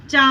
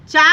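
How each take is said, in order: First: चा with the vowel through the nose, "chaan"; nasalised vowel. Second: Said in the usual way. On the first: Shown as a demonstration. Teacher contrasting sounds for children, चा made nasal. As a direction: send the end of चा into the nose. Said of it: "थोड़ा सा नाक से वो आवाज़ निकलता है". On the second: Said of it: "थोड़ा सा नाक से वो आवाज़".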